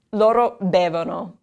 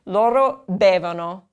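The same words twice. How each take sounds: First: Loro bevono again; LOH-roh BEH-voh-noh once more; repeat for class. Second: Loro bevono, clear; LOH-roh BEH-voh-noh; teacher modeling loro bevono; model for repeating. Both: Shown as a demonstration.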